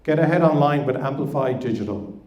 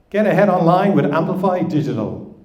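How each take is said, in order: First: It is said without a smile. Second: It is said with a smile.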